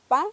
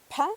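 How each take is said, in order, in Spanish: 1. La p es simple, sin soplo de aire. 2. La p se suelta con un fuerte soplo de aire. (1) "Si es una P normal, digo pa, pa, no se mueve el papelito" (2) "Si lo digo con la aspirada"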